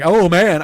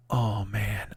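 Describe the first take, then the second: First: Louder, full-voiced exclamation of "Oh, man."; loud exclaimed oh man. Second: Mild mock groan. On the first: Shown as a demonstration. Comic shows how he didn't say it, loud. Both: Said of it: "I don't say that like".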